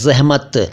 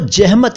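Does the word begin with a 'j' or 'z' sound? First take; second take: z; j. First: The word begins with a 'z' sound. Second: The word begins with a 'j' sound. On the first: The speaker calls it right. "यह है ज़हमत" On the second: The speaker calls it wrong. "ज़हमत को जहमत न कहें"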